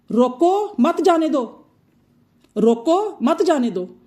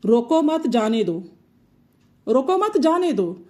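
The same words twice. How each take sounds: First: Higher, louder रोको, a break, then मत जाने दो; pause after रोको. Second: रोको मत run together, then जाने दो; pause after मत. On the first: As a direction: forbid it: stop on रोको, then say मत जाने दो together. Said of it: "यहाँ पर इस जुमले में मैं मना कर रही हूँ". (रोको के बाद ठहराव, मना करने का लहजा) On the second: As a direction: give permission: join मत to रोको, break, then say जाने दो. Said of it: "मैं वहाँ पर इजाज़त दे रही हूँ". (रोको मत के बाद ठहराव, इजाज़त का लहजा) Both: Shown as a demonstration.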